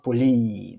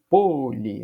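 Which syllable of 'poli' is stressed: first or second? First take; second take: second; first. First: The stress is on the second syllable. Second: The stress is on the first syllable. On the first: The speaker calls it wrong. "eu não falo poli" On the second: The speaker calls it right. "Eu falo poli"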